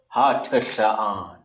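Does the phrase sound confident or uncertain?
confident. It is said firmly without a raised pitch. The speaker commits to the answer. The speaker calls it right. "so you just have to go for it"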